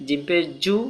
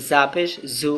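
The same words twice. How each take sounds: First: "জু" with a buzzing, vibrating j. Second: "জু" as a soft z without vibration; soft damp Z. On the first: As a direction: say "জিম পেশ জু" with vibration in the j. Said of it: "জিমের মধ্যে vibration আছে". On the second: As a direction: say "জা পেশ জু" with a loose, hissy z. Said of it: "আর জার মধ্যে স্যাঁতস্যাঁতে বাবা আছে". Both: Shown as a demonstration.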